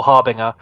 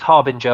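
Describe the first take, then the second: First: Harbinger with no j sound; Harbinger, ng as in singer; second pronunciation. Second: Harbinger, g like a j; first pronunciation. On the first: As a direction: say Harbinger as "HAR-bing-er". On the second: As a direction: say Harbinger as "HAR-bin-jer". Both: Shown as a demonstration. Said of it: "two ways to pronounce the name".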